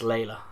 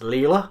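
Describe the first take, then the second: First: The first syllable sounds like 'lay'. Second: The first syllable sounds like 'lee'. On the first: "that is pronounced Layla" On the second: "so I want to pronounce it as Leela"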